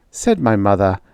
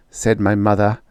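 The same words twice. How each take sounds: The two takes are said the same way.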